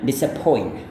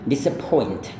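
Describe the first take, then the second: First: The final T sound is left off. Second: The final T sound is clearly pronounced. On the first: "tetapi kalau tidak" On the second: "Itu kalau lafalkan"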